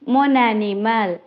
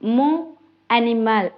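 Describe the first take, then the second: First: The final n links into the next word. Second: The two words are said separately with no link. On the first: The speaker calls it right. "சேர்த்து கதைக்கணும்" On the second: The speaker calls it wrong. "தனியே தனியே பிரிச்சு கதைக்காம"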